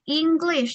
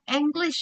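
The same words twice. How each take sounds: First: The first vowel sounds like 'i'. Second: The first vowel sounds like 'e'. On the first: The speaker calls it right. "tapi English. Jadi dibacanya itu i" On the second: The speaker calls it wrong. "bukan English"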